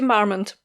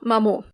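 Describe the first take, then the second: First: The name is pronounced in an English way. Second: The name is pronounced in a French way. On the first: The speaker calls it right. "But it's actually Percy Marmont" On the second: The speaker calls it wrong. "I was absolutely convinced that it was pronounced French"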